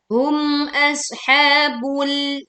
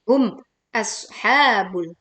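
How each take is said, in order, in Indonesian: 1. Kedua kata itu disambung tanpa jeda. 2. Kedua kata itu dipisahkan oleh jeda. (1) "Yang betul adalah hum ashabul" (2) "jangan memenggal menjadi hum ashabul. Itu keliru"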